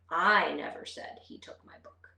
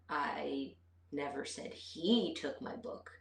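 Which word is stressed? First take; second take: I; he. First: The stress is on the word I. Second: The stress is on the word he. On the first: Someone else said it, not me. "let's put the emphasis on the first word" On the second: Someone other than him took it. "but maybe she took it"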